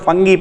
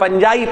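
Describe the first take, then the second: First: The word ends with a hard 'gee' sound. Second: The word ends with a soft 'jye' sound. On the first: "बहुत सारे लोग फंगी पढ़ते हैं" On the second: "फंजाई पढ़ो ज्यादा अच्छा है"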